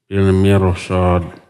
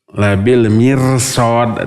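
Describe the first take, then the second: First: The r sound is heavy and thick. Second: The r sound is light and thin. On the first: The speaker calls it right. "harus dibaca tebal ya" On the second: The speaker calls it wrong. "dibaca tipis"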